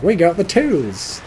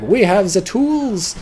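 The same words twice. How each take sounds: First: Slow, higher hammed-up American accent. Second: Slow, higher mock accent, not an American accent yet; wrong accent attempt. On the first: Rear echelon troops boasting about tools, in an American accent. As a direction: drawl it out like a cheery American GI. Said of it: "Or some other American accent". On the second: Rear echelon troops boasting, said in a botched accent. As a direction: stretch it out in a misfired foreign accent. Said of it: "Wrong, wrong accent".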